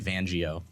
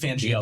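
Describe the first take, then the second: First: The name begins with a V sound. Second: The name begins with an F sound. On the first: The speaker calls it wrong. "I always want to say Vangio" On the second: The speaker calls it right. "you got it"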